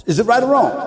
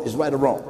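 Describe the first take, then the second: First: Pressing the question louder; louder repeat. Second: Said in the usual way. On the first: Real, not acted. Preacher pressing the crowd, louder repeat.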